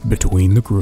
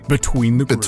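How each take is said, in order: First: It is said in a lower voice. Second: It is said in a higher voice.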